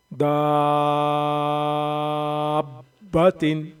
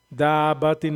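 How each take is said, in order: First: दाब्बतिन with the दा held five or six beats, then ब joined with a firm jolt; long madd stretch. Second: दाब्बतिन said quick with a short दा, no stretch; wrong short reading. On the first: Teacher showing the long madd before the shadda, slow chanted stretch. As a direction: pull the दा of दाब्बतिन out long and slow, then snap onto the doubled ब. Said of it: "पाँच से छः अलिफ की मिक़दार के बराबर खींचेंगे". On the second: Teacher showing the wrong quick way, fast and clipped short. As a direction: rush दाब्बतिन without holding the दा. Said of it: "दाब्बतिन नहीं".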